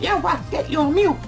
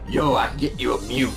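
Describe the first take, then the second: First: It is said in a put-on imitating voice. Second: It is said in the speaker's ordinary voice. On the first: The speaker calls it right. "He sounded like" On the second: The speaker calls it wrong. "Except he didn't sound like that"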